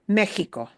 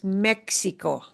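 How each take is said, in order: First: The x is pronounced like an h sound. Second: The x is pronounced like a ks sound. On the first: The speaker calls it right. "it'll often sound like a h sound, kind of like the jota" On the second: The speaker calls it wrong. "We should never pronounce this"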